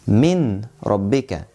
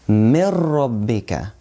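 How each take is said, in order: First: The n is pronounced clearly before the r. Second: The n merges fully into the r. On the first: The speaker calls it wrong. "We don't say min rabbika. We make merging" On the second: The speaker calls it right.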